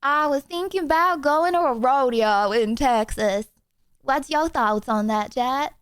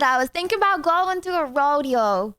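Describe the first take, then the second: First: Hammed-up mock Texas twang; second stab at a Texas accent, laid on thicker; attempted Texas accent. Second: Attempted Texas accent. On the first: Streamer asking chat about a rodeo, hammed-up Texas accent. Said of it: "That is not a Texas accent". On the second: Streamer joking to chat about a rodeo, failed Texas accent. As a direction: have a playful, unconvincing go at a Texas accent. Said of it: "That's not a Texas accent".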